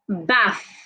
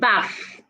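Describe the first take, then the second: First: It ends with a th sound. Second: It ends without a th sound. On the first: The speaker calls it right. "Put your tongue outside this way when you want to pronounce the T H" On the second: The speaker calls it wrong. "not bath"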